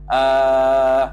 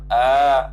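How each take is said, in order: First: The vowel is drawn out long. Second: The vowel is held briefly. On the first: "Kalau mamdudah" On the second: "tu maksur"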